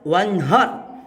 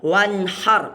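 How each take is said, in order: First: The h is a plain, light breath sound. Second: The h is a stronger, throaty breath sound. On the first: The speaker calls it wrong. "Jangan sampai cara baca ni wanhar" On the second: The speaker calls it right. "suana wanhar pakai hanga hangame"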